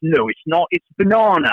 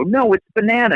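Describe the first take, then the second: First: Put-on high-pitched British kid insisting on "banana"; British accent. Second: High-pitched insistence, American "banana"; American pronunciation. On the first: Son contradicting his sister, high-pitched British accent. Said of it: "my kids all picked up British accents". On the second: Retold or imitated. Daughter arguing with brother, insistent American "banana". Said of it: "my daughter would go".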